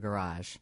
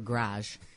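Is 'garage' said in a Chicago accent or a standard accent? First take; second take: standard; Chicago. First: It is said in a standard, non-Chicago accent. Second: It is said in a Chicago accent.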